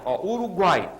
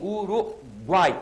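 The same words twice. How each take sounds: First: Said in the usual way. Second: "Uruguai" stretched very slowly, the final uai in one syllable; slow, drawn out. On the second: Shown as a demonstration. Teacher slowly pronounces "Uruguai" to show the triphthong. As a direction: draw out "Uruguai" to show the three-vowel glide. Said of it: "Olha o que eu circundei ali".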